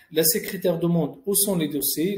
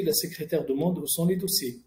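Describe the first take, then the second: First: "où sont les dossiers" asked as a question, rising at the end; questioning tune on "où sont les dossiers"; question intonation. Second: Said in the usual way. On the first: Shown as a demonstration. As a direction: lift "les dossiers" as if a question mark follows. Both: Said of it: "On a juste enlevé la ponctuation".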